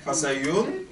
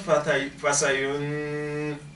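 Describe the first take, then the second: First: The n is clear, with no nasal hold. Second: The n is held with a nasal hum. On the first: The speaker calls it right. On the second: The speaker calls it wrong.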